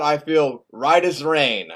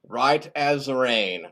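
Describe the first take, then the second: First: Slow, drawn-out assurance; self-assured. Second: Very slow, drawn-out repeat; self-satisfied echo. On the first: Bob insists he has no side effects, self-assured. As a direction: stretch the words out contentedly. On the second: Bob repeats that he feels fine, slow and self-satisfied. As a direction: savour each word slowly. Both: Acted.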